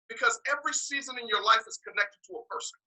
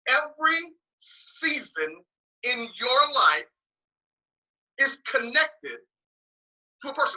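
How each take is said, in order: First: It is said at a normal pace. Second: It is said slowly and deliberately.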